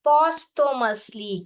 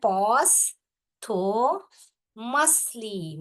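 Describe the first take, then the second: First: Slowly, syllable by syllable, louder. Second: Posthumously stretched very slowly into four syllables. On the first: Teacher dividing Posthumously into syllables for students. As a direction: break Posthumously into parts. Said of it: "ऐसे divide करके पढ़ेंगे". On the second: Teacher sounding out Posthumously in four syllables. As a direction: pull each syllable apart. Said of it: "spelling को four syllable में दिया". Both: Shown as a demonstration.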